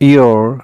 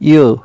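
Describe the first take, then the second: First: It is said without a British accent. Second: It is said with a British accent.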